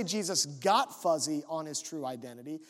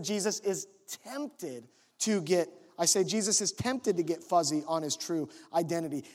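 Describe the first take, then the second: First: "got" punched as the word being denied; stress on GOT. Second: "tempted" hit hard, set apart as the correction; stress on TEMPTED. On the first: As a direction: hit "got" to mark the wrong version. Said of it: "I did not say". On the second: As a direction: lean on "tempted" to correct a misreading. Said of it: "Now notice what I said". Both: Shown as a demonstration.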